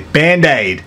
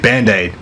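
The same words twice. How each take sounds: First: It is said in a broad, exaggerated Australian accent. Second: It is said in a standard Australian accent. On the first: "but a bogan would say band-aid" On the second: "so I say band-aid"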